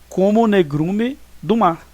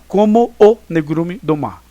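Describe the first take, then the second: First: The two o vowels merge into one syllable. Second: The two o vowels are said as separate syllables. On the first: The speaker calls it right. "uma emissão de um som somente" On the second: The speaker calls it wrong. "Você não vai, vai falar"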